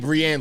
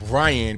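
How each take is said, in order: First: The name is said as Brienne. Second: The name is said the usual way, Brian. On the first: The speaker calls it wrong. "mispronounce my middle name as Brienne" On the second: The speaker calls it right. "I never heard the name Brian pronounced Brienne"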